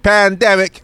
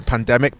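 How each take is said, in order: First: Loud, high-pitched holler; mock scream. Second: Said in the usual way. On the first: Co-host hollering about the hiatus, mock screaming. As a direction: shout it out like a street cry. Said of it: "screaming, "Pandemic".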